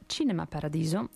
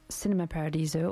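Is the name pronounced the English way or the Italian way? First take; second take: Italian; English. First: The name is said with an Italian pronunciation. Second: The name is said with an English pronunciation.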